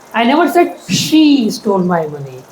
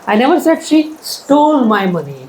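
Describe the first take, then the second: First: The word she carries the main stress. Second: The word stole carries the main stress. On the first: A different person stole it. "I said he stole my money, not she" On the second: It was taken, not stolen. "She just took it without asking me"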